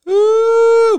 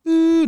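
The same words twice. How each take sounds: First: Very high, very loud long "ooh"; imitated noise, full blast. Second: High, loud short "ooh"; imitated noise, lesser version. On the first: Storyteller showing the noise once it reached the room, blaring high ooh. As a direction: blast out a piercing sustained hoot. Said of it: "but it was like". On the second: Storyteller showing the noise as done now, high hooted ooh. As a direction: hoot it high, holding back a little. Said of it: "I'm doing that, that". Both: Shown as a demonstration.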